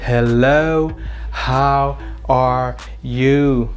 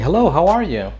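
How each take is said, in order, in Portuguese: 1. As palavras são ditas devagar e separadamente. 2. As palavras são ditas juntas, de forma fluida. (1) "você vai ficar meio estranho falando bem devagar" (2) "connected speech, que eu falo assim ... Eu junto todas as palavras"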